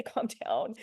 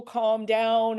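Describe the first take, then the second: First: Said in the usual way. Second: Loud, blunt "Calm down" as an order; commanding calm down. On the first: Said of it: "Never say". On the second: Shown as a demonstration. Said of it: "if we ever tell people".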